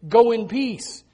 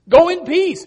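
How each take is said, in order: First: Said in the usual way. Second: "Go in peace" called out louder and higher; ringing proclamation. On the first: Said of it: "Thy faith has saved thee". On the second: Shown as a demonstration. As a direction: proclaim "Go in peace" to the whole room.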